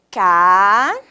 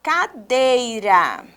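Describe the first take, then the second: First: Long rising CA, then DEI, then RA, long gaps; "Ca... dei... ra", each syllable drawn out alone. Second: Slow, joined "Cadeira", falling at the end; whole word, slowly. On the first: Teacher separating the word while writing it, syllable by syllable. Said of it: "separar as palavras em sílabas". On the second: Teacher reading back the written word, whole word slowly. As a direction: stretch CADEIRA gently as one word. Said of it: "vamos escrever a palavra". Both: Shown as a demonstration.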